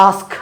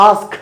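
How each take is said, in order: The two takes are said the same way.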